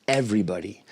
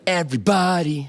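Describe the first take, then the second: First: The stress follows the natural spoken pattern. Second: The stress is shifted as in a pop song. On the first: "where the stress is everybody" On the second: "In a pop song usually sounds like everybody"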